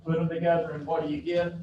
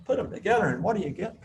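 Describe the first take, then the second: First: Fast peppy chant to the class; rally them like a cheerleader. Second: Higher, faster peppy cheer call; cheerleader. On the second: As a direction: pump up the crowd, quick and bright. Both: Shown as a demonstration. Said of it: "I sound like a cheerleader".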